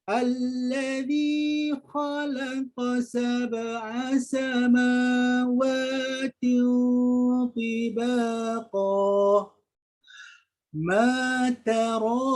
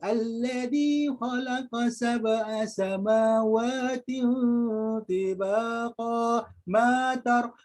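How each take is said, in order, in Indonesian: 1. Bacaannya berhenti dengan jeda setelah tibaqa. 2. Bacaannya terus tanpa jeda setelah tibaqa. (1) "cara kesempurnaan ayat" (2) "terus salah bacaan tu"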